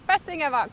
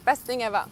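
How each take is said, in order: First: Laughing. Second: Said in the usual way. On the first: Real, not acted. Repeats phrase with a laugh.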